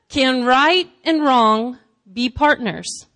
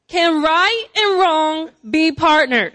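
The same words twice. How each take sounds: First: It is read plainly, without attitude. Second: It is read forcefully, with attitude.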